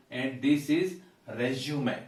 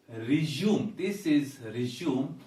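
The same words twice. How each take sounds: First: 'resume' in three syllables, 'REZ-joo-may'; noun pronunciation. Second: 'resume' in two syllables, 'ri-ZOOM'; verb pronunciation. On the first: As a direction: stress the first syllable of 'resume', ending 'may'. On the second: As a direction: stress the second syllable of 'resume'. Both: Shown as a demonstration. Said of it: "listen to this".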